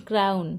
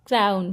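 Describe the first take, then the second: The two takes are said the same way.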